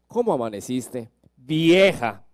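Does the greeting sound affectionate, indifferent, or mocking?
indifferent. It is said flatly, without warmth. The affection has faded. "pasan los años"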